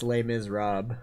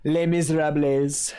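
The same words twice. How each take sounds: First: "Les Miserables" with the last word ending in "-rob"; "Les Miserables" French-style, silent final s; French-style pronunciation. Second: "Les Miserables" with the last word ending in "-ra-blez"; "Les Miserables" with every final letter sounded, louder; anglicized mispronunciation. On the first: Title said two ways for fun. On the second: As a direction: say "Les Miserables" as "lay miz-rab-lez". Title repeated, deliberately mispronounced. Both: Shown as a demonstration.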